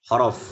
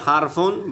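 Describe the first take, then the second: First: The word ends on a bare consonant. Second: The word ends with an added 'un' syllable. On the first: This is the form used in ordinary speech. "বলার সময় বলতে হবে হরফ" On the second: This is the form used while learning. "শেখার সময় বলতে হবে হারফুন"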